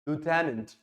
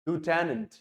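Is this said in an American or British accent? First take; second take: American; American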